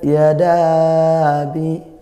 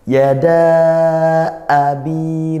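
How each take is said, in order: First: The glottal stop before 'abi' is weak and soft. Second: The glottal stop before 'abi' is pressed forcefully. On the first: The speaker calls it wrong. "jangan lemas gitu" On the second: The speaker calls it right. "Syiddahkan dia"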